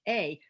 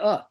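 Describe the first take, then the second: First: The vowel is a full 'ay' sound. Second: The vowel is a reduced 'uh' sound. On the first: The speaker calls it wrong. "teachers are teaching that the A is pronounced A, but nobody says A" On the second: The speaker calls it right. "They say uh"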